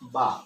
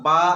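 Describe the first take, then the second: First: It is said lightly with gentle lip release. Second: It is said with strong, heavy force. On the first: The speaker calls it right. "হালকা দুটো ঠোঁট ড্রপ খাবে বলেছে হালকা করে" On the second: The speaker calls it wrong. "বড় শক্তি নিয়ে পড়ছি, বা বা ওরকম নয়"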